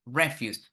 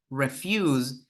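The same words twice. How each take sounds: First: Noun "refuse", stressed on REF-; stress on first syllable. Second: Verb "refuse", stressed on -FUSE with a z sound; stress on second syllable. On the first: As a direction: put the weight on REF- in "refuse". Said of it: "the stress falls on the first syllable". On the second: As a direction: put the weight on -FUSE in "refuse". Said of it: "the second syllable in the first word". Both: Shown as a demonstration.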